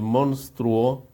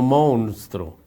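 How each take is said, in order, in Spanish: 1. La palabra se dice con su pronunciación estándar. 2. La palabra se dice con una pronunciación deformada. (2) "no monstruo"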